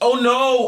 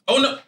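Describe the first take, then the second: First: It sounds overdone and theatrically performed. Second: It sounds natural and genuinely surprised. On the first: The person is only pretending to have fallen. The speaker calls it wrong. "acting like you're acting" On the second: The person has really fallen. The speaker calls it right. "there's actually genuinely falling"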